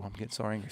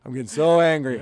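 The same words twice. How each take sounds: First: Much softer, under the breath, lower; muttering angrily. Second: Louder, stress on so, heated; real angry outburst. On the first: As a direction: mutter the anger to yourself. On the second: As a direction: let the anger burst out on so. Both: Real, not acted. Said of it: "That's how you know I'm angry".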